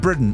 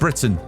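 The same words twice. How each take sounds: First: The middle T is dropped, replaced by a catch. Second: The middle T is clearly pronounced. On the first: "I don't say T's" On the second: "and not Britain"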